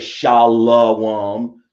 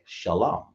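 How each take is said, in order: First: The word is said with an 'oh' vowel. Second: The word is said with only 'ah' vowels. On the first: The speaker calls it wrong. "You don't say Shalom" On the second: The speaker calls it right. "Shah and S H A, and then La ... and then Ma, M A, Shalom. That's it"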